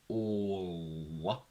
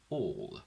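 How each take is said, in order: First: The final L curl is strongly exaggerated. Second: The final L is said naturally, not exaggerated.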